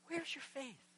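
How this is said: It is said gently, like a caring father.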